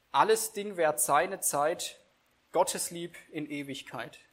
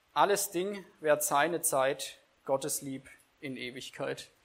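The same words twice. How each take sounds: Both takes have the same delivery.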